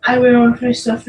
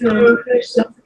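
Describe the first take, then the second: First: Said in the usual way. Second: Higher, whiny insistence; exasperated. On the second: Real, not acted. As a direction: insist again, fed up. Insisting on finishing.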